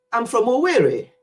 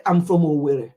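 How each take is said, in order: First: Put-on higher, lilting English-accented Owerri; children's English accent. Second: Owerri said the Nigerian way, level and falling; low, plain Nigerian Owerri; parent's Nigerian pronunciation. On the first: Nigerian children naming their village in an English accent. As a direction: imitate British-born children saying Owerri. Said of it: "pronounce it in their own accent". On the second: Shown as a demonstration. Telling children the village name, in Nigerian pronunciation. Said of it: "the way you will say it".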